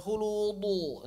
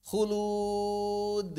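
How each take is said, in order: First: Khuludu with a heavy rounded final "du"; slow khuludu, thick echo on the end; wrong thickened dal. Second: Khulud with long vowel and light d release; khulud, held long, ending in a small bounce; correct thin dal. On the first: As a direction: show the mistake of thickening khuludu. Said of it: "jangan begitu, jangan ditebalkan". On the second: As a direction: model khulud with a thin echo. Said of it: "jangan khuludu". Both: Shown as a demonstration.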